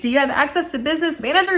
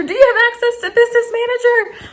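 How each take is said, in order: First: Higher-pitched, quick asking; eager question. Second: Very high, loud, squealed asking; over-excited question. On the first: Customer checking with support guy, eager. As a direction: ask it quickly, pitched up but contained. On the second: Customer bursting at support guy, over-excited. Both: Retold or imitated. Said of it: "I'm so stoked".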